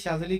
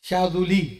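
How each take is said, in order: First: The z runs straight into the l. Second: An u vowel comes after the z. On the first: This is how it is said in India and Pakistan. The speaker calls it wrong. "हमारे हिंदुस्तान पाकिस्तान में शाजली शाजली कहते हैं" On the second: This is how Arabic speakers say it. The speaker calls it right. "लेकिन जाल पर पेश है शाजुली"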